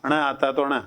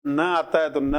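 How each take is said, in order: First: Retroflex nasal in "अण"; ण का उच्चारण. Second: Plain dental "न"; न का उच्चारण. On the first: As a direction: curl the tongue back for the ण in "अण". ("अण" में मूर्धन्य ण का उच्चारण) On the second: (दंत्य "न" का स्पष्ट उच्चारण) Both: Shown as a demonstration.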